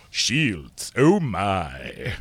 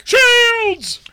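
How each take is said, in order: First: Put-on voice, dropped back from a shout; drawn-out, hammed-up impression; Sulu. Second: Very high, loud bridge-officer shout; Sulu. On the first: Co-host mocked as Sulu plays along, low-key impression. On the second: Acted. Co-host mocked as Sulu plays along, high shouted impression. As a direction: scream the command, hammed up. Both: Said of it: "You sound like Sulu".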